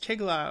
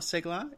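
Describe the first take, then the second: First: The name begins with a ch sound. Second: The name begins with an s sound. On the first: The speaker calls it right. "C-E is usually a ch sound" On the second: The speaker calls it wrong. "It's not Segler"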